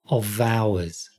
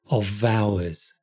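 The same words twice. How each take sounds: Both takes have the same delivery.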